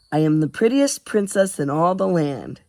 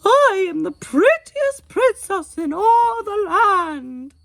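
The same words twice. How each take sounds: First: Tonelessly, without any effort; grudging monotone recital; said flatly. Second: High warbling falsetto in a mock English accent, slow; warbling falsetto princess. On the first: Acted. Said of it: "he said flatly". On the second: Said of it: "warbling falsetto with a faux English accent".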